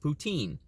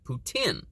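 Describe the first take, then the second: First: It is said with an American pronunciation. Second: It is said with a Canadian pronunciation. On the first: "If you live in the United States, we know it as" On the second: "If you live north of the border in Canada, you may know it as"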